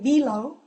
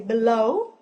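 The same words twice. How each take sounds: First: The stress is on the first syllable. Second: The stress is on the second syllable. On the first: The speaker calls it wrong. "we don't say below" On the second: The speaker calls it right. "So we say below"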